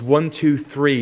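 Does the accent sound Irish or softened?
softened. It is said in a softened, less Irish accent. Years in England have toned the accent down. "they soften your accent a little bit"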